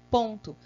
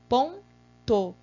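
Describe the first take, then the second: First: The word ends with an 'oo' vowel. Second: The word ends with an 'oh' vowel. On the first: The speaker calls it wrong. "pronunciei do modo que não é correto" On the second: The speaker calls it right. "escrever correto"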